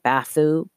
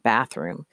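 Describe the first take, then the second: First: "bathoo", bathroom with its middle and end swallowed; mumbled word. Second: Said in the usual way. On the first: A narrator's reading. Girl garbling bathroom to the woman, mumbled into "bathoo". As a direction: mumble it into "bathoo", dropping the r and final m. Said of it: "came out sounding like". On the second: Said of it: "She mumbled the word bathroom".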